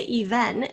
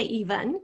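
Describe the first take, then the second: First: EVEN with a full "ven"; clear second vowel. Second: EVEN with a reduced second vowel; schwa ending. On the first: Teacher giving a spelling hint, even with a clear e. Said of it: "some people say even". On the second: Teacher addressing those who say it lazily, even with a schwa. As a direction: say even as EE-vun. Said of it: "if you say even". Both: Shown as a demonstration.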